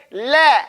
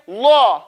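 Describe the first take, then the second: First: La said thin and light, slowly. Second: La said full and rounded, slowly; heavy la. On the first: Teacher showing the lam after a kasra. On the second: Teacher showing the lam after a fatha. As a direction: say La deep after a dhamma or fatha. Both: Shown as a demonstration. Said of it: "you say".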